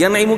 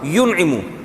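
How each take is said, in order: First: The first syllable has an 'a' vowel. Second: The first syllable has a 'u' vowel. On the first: The speaker calls it wrong. "जबर के बजाय पेश होगा" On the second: The speaker calls it right. "जबर के बजाय पेश होगा"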